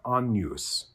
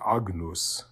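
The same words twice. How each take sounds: First: The GN sounds like the NY in canyon. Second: The GN is said as a hard G then N. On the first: This is the church pronunciation. "it's got the kind of NY sound of canyon" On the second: This is the classical pronunciation. "classical pronunciation would be"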